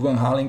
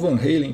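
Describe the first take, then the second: First: The name is said in a Portuguese way. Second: The name is said in an American way.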